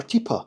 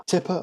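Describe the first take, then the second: First: Teeper with a long "ee" in the first syllable; long-vowel teeper. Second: Tipper with a short "ih" in the first syllable; short-vowel Tipper. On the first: Reviewer debating pronunciations, teeper with long "ee". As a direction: say teeper to rhyme with "keeper". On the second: Reviewer debating pronunciations, Tipper with short "ih". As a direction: say Tipper to rhyme with "ripper". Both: Shown as a demonstration. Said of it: "if you're debating pronunciations".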